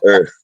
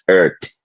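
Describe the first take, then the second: First: The word is said in a standard way. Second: The word is said in a Jamaican way. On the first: The speaker calls it right. "it's earth" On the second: The speaker calls it wrong. "not earth"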